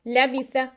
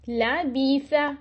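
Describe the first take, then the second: First: The short vowels are cut off abruptly. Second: The short vowels are stretched out long. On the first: "हम इसको एक्स्ट्रा छोटा कर देते हैं" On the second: "ये मैं उनको खींच रही हूं"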